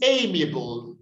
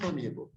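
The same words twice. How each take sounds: First: Amiable opening on a long 'ay'; corrected pronunciation. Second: Amiable with short 'a', thrown away softly; wrong pronunciation. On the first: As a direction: model amiable as AY-mee-uh-bul. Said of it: "It's amiable". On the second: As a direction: dismiss amiable as AM-ee-uh-bul. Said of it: "not amiable". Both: Shown as a demonstration.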